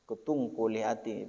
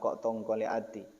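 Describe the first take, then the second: First: The first word sounds like kutung. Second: The first word sounds like kok tong. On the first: The speaker calls it right. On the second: The speaker calls it wrong.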